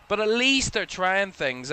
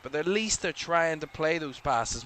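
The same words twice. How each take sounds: First: Louder and higher, leaning hard on least; emphatic insistence. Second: Said in the usual way. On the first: Real, not acted. Pundit defends South Africa's attempts, emphatic and raised. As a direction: punch the word least, rising up.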